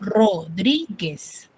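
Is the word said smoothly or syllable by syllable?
syllable by syllable. The word is broken into separate syllables. "Estoy haciéndolo de manera pausada y por ende lo estoy silabeando"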